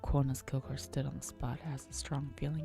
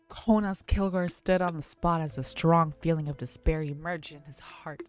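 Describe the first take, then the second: First: It is read quietly, in a low voice. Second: It is read loudly, with a raised voice.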